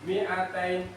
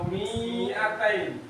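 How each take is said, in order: First: The vowel after the m is kept short. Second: The vowel after the m is drawn out long. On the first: The speaker calls it right. "maka dibaca pendek" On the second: The speaker calls it wrong. "jangan mi'atun atau mi'atain"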